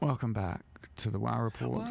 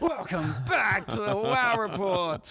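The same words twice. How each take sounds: First: It is said with ordinary, low energy. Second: It is said with more lively energy.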